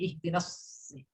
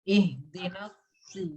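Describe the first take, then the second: First: The heavy s stays thick without rounded lips. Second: The heavy s is said with rounded, pushed-out lips. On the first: The speaker calls it right. "jadi dia masih ada tebalnya, tapi tidak sampai uh, manyun" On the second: The speaker calls it wrong. "Monyong itu kan gini ya Yun"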